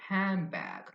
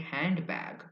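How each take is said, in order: First: The middle sound becomes an m. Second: The middle sound is a clear n. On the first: "they say m, the m sound" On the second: "They say handbag"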